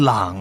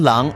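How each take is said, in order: First: The syllable is said with a dipping tone. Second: The syllable is said with a rising tone. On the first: The speaker calls it wrong. "而不是三声朗" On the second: The speaker calls it right. "这个郎是二声郎"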